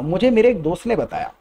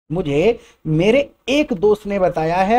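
First: Said in the usual way. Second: "एक" stretched and rising; slowly emphasise "एक दोस्त"; stress on एक. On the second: Shown as a demonstration. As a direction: lean on "एक". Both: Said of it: "एक दोस्त पे emphasise करने के लिए".

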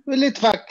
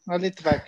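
First: "a Litvak" called out higher and louder, the word Litvak lifted; exclaiming a Litvak. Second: Said in the usual way. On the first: Real, not acted. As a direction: recognize it aloud: "a Litvak!", pitched up and loud. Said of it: "Oh, s-, a Litvak".

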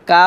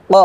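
First: কা with a light "aa"; plain open "kaa" for কা; wrong thin vowel. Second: ক thick and rounded, "qo"; deep back q with dark vowel on ক; correct heavy qaf. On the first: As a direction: say কা thin, unrounded. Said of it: "কফ জবর কা হবে না". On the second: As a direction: say ক full and heavy. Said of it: "হবে ক". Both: Shown as a demonstration.

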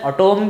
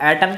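First: "एटॉम" with a long open o; alternative pronunciation. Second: "एटम" with a short, unstressed second vowel; usual pronunciation. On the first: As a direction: say "एटॉम" as a-TOM, full second vowel. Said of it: "pronunciation में ... एटॉम भी कहा जाता है". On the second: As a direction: say "एटम" as English AT-um. इसको एटम के बदल एटॉम भी. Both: Shown as a demonstration.

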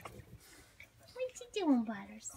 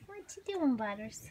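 First: Drawn-out coo to Butters; slow stretched coo. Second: Cooing. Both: Real, not acted. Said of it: "repeated question".

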